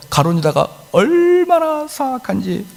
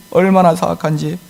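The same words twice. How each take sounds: First: 얼마나 drawn out high and slow; stress on 얼마나. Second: Said in the usual way. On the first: Acted. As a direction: stretch 얼마나 to stress how wicked. (얼마나를 높고 길게 강조) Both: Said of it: "repeated emphasis".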